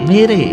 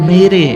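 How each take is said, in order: No difference in how they are said.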